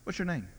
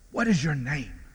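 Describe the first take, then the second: First: It is asked lightly and casually. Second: It is asked slowly and solemnly.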